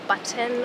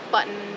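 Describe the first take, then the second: First: The T sound is clearly pronounced. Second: The T sound is dropped. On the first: "people say things like" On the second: "There's no T"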